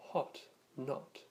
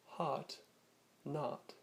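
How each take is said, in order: First: British "hot, not" with a short rounded o; British style accent. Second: North American "heart, not", meaning hot, with an open ah; North American vowel. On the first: Teacher showing the British spelling with letter O, British short o in "hot, not". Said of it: "more neutral British style accent". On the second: Teacher showing North American speakers' vowel, American ah in "heart, not". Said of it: "many North American speakers may also use". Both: Shown as a demonstration.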